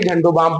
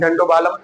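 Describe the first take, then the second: First: The l in balm is not pronounced. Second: The l in balm is clearly pronounced. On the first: The speaker calls it right. "एल हमारा silent होगा। सो हम बालम नहीं पढ़ेंगे" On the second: The speaker calls it wrong. "ऐसे तो कोई कभी नहीं बोला है"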